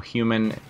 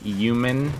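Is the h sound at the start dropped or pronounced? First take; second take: pronounced; dropped. First: The word begins with a clear h sound. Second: The word begins without any h sound. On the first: The speaker calls it right. "instead of that" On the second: The speaker calls it wrong. "not pronouncing the H"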